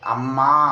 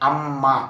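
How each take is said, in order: First: The final vowel is long. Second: The final vowel is short.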